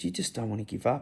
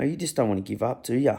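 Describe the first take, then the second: First: Much softer, hushed, tender repeat of "You just don't wanna give up.". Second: Light, fond teasing question to the dog. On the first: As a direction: drop the voice to a hush and say it tenderly to the dog. Repeats softly to dying dog. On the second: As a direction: gently rib the dog that won't give up. Teasing the old dog fondly. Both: Retold or imitated.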